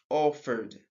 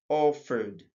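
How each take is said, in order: The two takes are said the same way.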